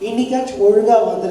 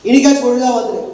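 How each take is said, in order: First: It is said in a sweet, gentle tone. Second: It is said in a harsh, commanding tone. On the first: It sounds like a kind request. The speaker calls it right. "இன்னும் கொஞ்சம் voice ஸ்வீட்டா வச்சு சொல்லுங்க" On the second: It sounds like an order. The speaker calls it wrong. "அம்மா இப்படி இல்லைம்மா"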